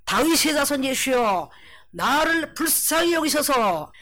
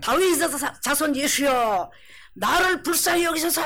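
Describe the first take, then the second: First: Slow, drawn-out plea, pitched up at the end; crying out. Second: Crying out repeatedly. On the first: Blind beggar calling to Jesus for mercy, crying out. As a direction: call out slowly for mercy. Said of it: "소리 질러 가로되". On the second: Beggar calling out to Jesus yet again, shouting. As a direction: shout it out insistently, stretching the words. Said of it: "이 말을 한 번만 했겠어요?". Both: Acted.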